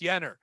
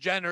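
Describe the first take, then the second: First: The name begins with a Y sound. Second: The name begins with a J sound. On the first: The speaker calls it right. "they don't pronounce the J's. It's Yenner" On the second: The speaker calls it wrong. "it's not pronounced Jenner"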